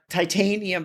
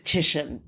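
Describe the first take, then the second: First: The name is sounded out following its spelling. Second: The name is said in its usual accepted form. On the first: The speaker calls it wrong. "some people may actually pronounce it uh, titanium because the way it's it's the way that it's spelled" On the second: The speaker calls it right. "it's actually it is Titian is is his name"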